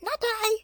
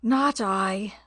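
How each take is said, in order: First: Very high squeaky rat no; rat with a squeak. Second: Lightly grunted piggy no. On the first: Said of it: "with a squeak". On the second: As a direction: grunt out a lazy refusal. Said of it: "with a grunt". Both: A narrator's reading.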